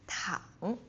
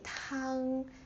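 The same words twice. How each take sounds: First: The pitch dips low and comes back up. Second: The pitch stays high and level. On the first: It means to lie down. "the third tone, like ah, like a roller coaster" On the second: It means soup. "If you say tang, like the first tone, it means soup"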